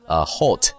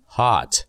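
First: The vowel is a rounded 'o' sound. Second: The vowel is an open 'ah' sound. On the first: The speaker calls it wrong. "就不会读成我们以前读的hot" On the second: The speaker calls it right. "它一般情况下会读作啊"

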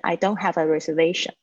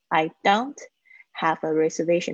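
First: The words are fast, linked, with faint t. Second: Each word is said separately and carefully.

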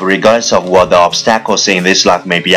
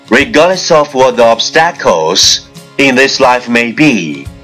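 First: It is spoken very fast in one breath. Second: It is spoken at a moderate, steady pace. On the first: "一口气，最快语速" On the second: "跟上我的节奏。"

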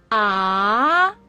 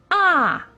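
First: The pitch rises from middle to high. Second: The pitch falls sharply from high to low. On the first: "二声扬" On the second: "四声降"

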